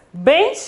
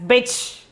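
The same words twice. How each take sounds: First: Bench with a nasalised e and n before ch; bench, the bindu heard as n; with nasal n. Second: Bech with the vowel straight into ch; bech, oral vowel before ch; without the nasal. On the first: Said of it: "Pronunciation differs as". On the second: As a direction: say bech with no n sound. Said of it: "if there is no bindu". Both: Shown as a demonstration.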